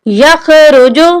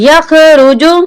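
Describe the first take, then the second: The two takes are said the same way.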